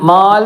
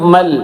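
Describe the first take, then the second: First: The vowel is held long. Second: The vowel is kept short. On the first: The speaker calls it wrong. "എന്ന് പറയുന്നതിന് പകരം" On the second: The speaker calls it right. "പകരം മൽ"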